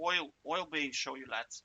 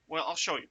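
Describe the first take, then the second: First: Playful light Irish lilt, oil for I'll; mock Irish accent. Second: Said in the usual way. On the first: Teacher joking to students in a mock Irish accent. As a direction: say it like a cheeky Irish lad. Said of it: "but now I'm Irish". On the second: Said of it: "Oil, oil being show you".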